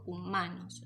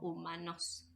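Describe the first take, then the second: First: The stress is on the middle syllable. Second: The stress is on the last syllable. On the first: The speaker calls it right. "la sílaba que suena más fuerte cuando yo pronuncio la palabra es ma" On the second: The speaker calls it wrong. "ni digo humanos"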